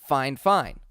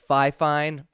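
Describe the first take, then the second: First: The first syllable sounds like 'fine'. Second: The first syllable sounds like 'fie'. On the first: The speaker calls it right. "I would assume that that is fine fine" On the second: The speaker calls it wrong. "instead of fi fine"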